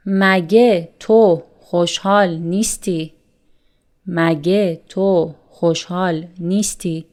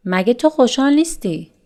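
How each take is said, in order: First: Said in the usual way. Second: Fast casual question. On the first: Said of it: "repeated example". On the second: Shown as a demonstration. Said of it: "fast repeated example".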